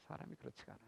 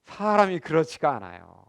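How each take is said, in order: First: 사람이 그렇지가 않아요 repeated much softer, almost to himself; soft echo. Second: Said in the usual way. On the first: Shown as a demonstration. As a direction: let the repeat fall away to a murmur. (사람이 그렇지가 않아요를 아주 작게 되뇌듯)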